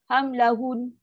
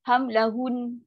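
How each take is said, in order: No difference in how they are said.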